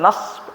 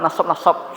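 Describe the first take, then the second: First: No vowel follows the middle consonant. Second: A vowel follows the middle consonant. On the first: It means the accusative case. The speaker calls it right. "Yang benar penulisan nas" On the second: It would mean great tiredness. The speaker calls it wrong. "orang bilang nasab-nasab seakan-akan shadnya ini hi, hidup"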